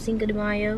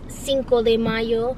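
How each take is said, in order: First: It is said with an anglicized English pronunciation. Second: It is said with a native Spanish pronunciation. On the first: "so Cinco de Mayo" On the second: "no one can pronounce it like that"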